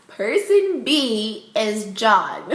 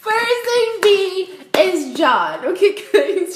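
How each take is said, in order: First: Slow, drawn-out announcement through laughter; laughing reveal. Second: Very high, loud singsong announcement; gleeful shrieked reveal. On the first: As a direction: savour the big reveal, laughing. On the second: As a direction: squeal the big reveal slowly, stretching each word. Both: Real, not acted.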